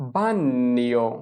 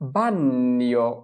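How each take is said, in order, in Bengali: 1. gn উচ্চারিত হয় পূর্ণ দ্বিত্ব n হিসেবে। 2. gn উচ্চারিত হয় পূর্ণ দ্বিত্ব n হিসেবে।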